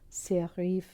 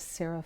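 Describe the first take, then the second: First: It is said with a French pronunciation. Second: It is said with an English pronunciation.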